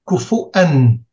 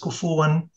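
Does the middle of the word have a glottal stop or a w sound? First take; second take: glottal stop; w sound. First: The middle consonant is a glottal stop. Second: The middle consonant is a w sound. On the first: "it's Kufu'an in most other recitations" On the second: "There's one place he drops the Hamza where most other readers keep it"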